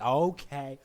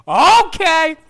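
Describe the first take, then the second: First: Said in the usual way. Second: High, loud cry of giving up; mock panicked yell; exasperated surrender. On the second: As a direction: yelp it in comic capitulation. Second, escalated surrender cry.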